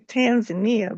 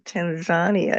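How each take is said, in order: First: It is said the usual American way. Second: It is said the way locals say it. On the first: This is how people in the US say it. "Here in the U S, we normally say" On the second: This is how people in the country say it. "I hear you saying"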